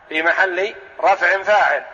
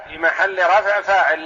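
First: فاعل pressed hardest with a falling close; stress on فاعل. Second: رفع pressed hardest, the phrase ending in a fall; stress on رفع. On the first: Teacher stressing فاعل to the class. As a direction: lean on the word فاعل and let it drop. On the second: Teacher repeating the parse with stress on رفع. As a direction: hit the word رفع, then let the phrase drop. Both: Shown as a demonstration.

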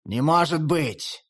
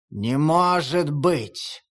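First: Slow, shaken disbelief; dazed repeat. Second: Very slow, stunned denial; stunned disbelief. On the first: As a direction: repeat it numbly. Shaking head, repeat. (потрясённо, медленно) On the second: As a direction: let it sink in, dazed. Stunned wolf. (ошеломлённо, очень медленно) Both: Acted.

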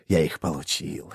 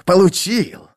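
First: Quiet gloat. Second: Higher, louder triumphant cry; triumphant gloat. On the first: Repeated gloat. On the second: Iskaral crows about the women, higher and triumphant. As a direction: crow the word получил in triumph. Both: A narrator's reading.

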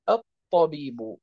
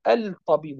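First: الطبيب with the lam merged, at-tabib with a doubled ط; correct merged lam. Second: الطبيب with the lam sounded, al-tabib; wrong pronunciation. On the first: Teacher giving students the right way, lam merged into ta. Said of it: "وإنما نقول الطبيب". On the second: Teacher showing students the wrong way, lam kept. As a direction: say الطبيب keeping the lam, al then tabib, as the mistake. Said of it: "لا نقول الطبيب". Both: Shown as a demonstration.

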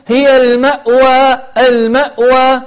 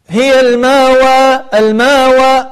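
First: المأوى with a firm glottal stop on the hamza; clear hamza. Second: الماوى with the hamza dropped; softened hamza, wrong. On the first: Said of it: "والصحيح أن تقول". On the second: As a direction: glide through الماوى without the glottal stop. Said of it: "هذا خطأ". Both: Shown as a demonstration.

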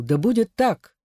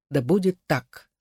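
First: Higher-pitched joyful acclaim, landing on a fall; joyful exclamation. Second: Understated echo of a glad acclaim; subdued joyful exclamation. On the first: The people acclaim their new sovereign, joyful exclamation. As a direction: exclaim it gladly, lifted in pitch. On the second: The people echo their assent, restrained joyful exclamation. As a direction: affirm it gladly but settled, falling at the end. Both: A narrator's reading. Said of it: "народ радостно воскликнул".

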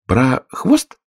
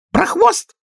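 First: Puzzled rising question on хвост; bewildered echo, rising at the end. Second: Sudden shrill squeal on хвост; high squealing cry; shriek. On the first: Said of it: "повторила Алиса с недоумением". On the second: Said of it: "она вдруг взвизгнула". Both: A narrator's reading.

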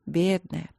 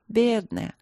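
First: Sighed Бедная, falling; sighing. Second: Бедная again, higher, falling away; sorrowful higher бедная; pitying. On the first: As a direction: breathe Бедная out with pity. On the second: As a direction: lift the second бедная in sorrow. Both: A narrator's reading. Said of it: "вздохнула Далин".

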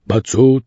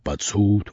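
First: Said in the usual way. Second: Softer grumbled repeat; low sulky grumble; grumbling. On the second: A narrator's reading. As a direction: mutter it under your breath. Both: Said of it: "ворчал Басилов".

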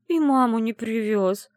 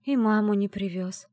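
First: Slow, louder sobbing lament; tearful complaint. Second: Said in the usual way. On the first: Acted. Heroine complaining to grandmother, weeping. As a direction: drag it out through tears.

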